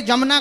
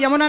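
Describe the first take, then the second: First: "जमुना" begun with a hard j; older j-form "जमुना"; older pronunciation. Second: "यमुना" begun with a y glide; present-day pronunciation. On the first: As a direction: say "जमुना" with j in place of y. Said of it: "पहले जमुना कहा जाता था". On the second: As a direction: say "यमुना" with an initial y sound. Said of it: "अब वर्तमान में यमुना नदी कहते हैं". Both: Shown as a demonstration.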